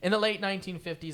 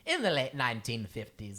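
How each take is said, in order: First: It is read in a plain, natural voice. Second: It is read in an affected, put-on voice.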